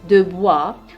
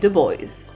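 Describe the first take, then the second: First: The name is said with a French pronunciation. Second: The name is said with an American pronunciation. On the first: "their French last name" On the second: "in American we say"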